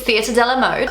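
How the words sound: It is said in an Australian accent. "I sounded so Aussie"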